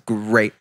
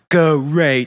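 First: The word is said normally as one syllable. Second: The word is drawn out into separate syllables. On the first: This is how the speaker really says it. "I'm like, it's great" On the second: Someone else is mocking how the speaker says it. "He always goes, go rate"

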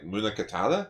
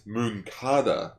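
First: The vowel after 'Mun' is fully pronounced. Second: The vowel after 'Mun' is dropped. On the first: The speaker calls it wrong. "how do you pronounce the commander's name? Like" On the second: The speaker calls it right. "no, apparently it's Munkata"

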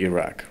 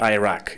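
First: The word begins with an 'ih' sound. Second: The word begins with an 'eye' sound. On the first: The speaker calls it right. "It's obviously" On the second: The speaker calls it wrong. "It's not"

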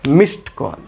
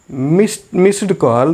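First: The past tense ending is a plain t sound. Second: The past tense ending is said as an extra syllable. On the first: The speaker calls it right. "this is missed call" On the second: The speaker calls it wrong. "this is not missed call"

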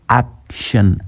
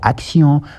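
First: The ending is said like English 'shun'. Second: The ending is said like French 'see-on'. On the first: The speaker calls it right. "bat la wax action" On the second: The speaker calls it wrong. "waxoo action"

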